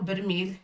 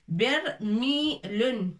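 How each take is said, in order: First: The word ends on the 'l' with nothing added. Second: The word ends with an added 'un' syllable. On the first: This is how people say it in everyday speech. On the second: This is the full formal form of the word.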